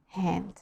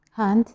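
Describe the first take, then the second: First: "hand" with a flat American æ. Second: "Hand" with a broad British A. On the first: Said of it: "American people". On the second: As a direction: say "Hand" with an open A. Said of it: "British people". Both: Shown as a demonstration.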